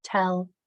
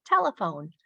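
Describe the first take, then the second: First: "Telephone" split into three parts with gaps; "Telephone" said as three separate syllables. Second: Said in the usual way. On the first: Shown as a demonstration. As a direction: break "Telephone" into tel, e, phone. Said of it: "I have a word with three syllables". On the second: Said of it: "kids are gonna blend that together".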